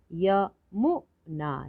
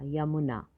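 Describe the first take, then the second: First: यमुना slowly split as य, मु, ना; three separate beats in यमुना; syllable by syllable. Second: Said in the usual way. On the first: Shown as a demonstration. Teacher sounding out यमुना for learners, syllable by syllable. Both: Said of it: "तो शब्द पढ़ते हैं".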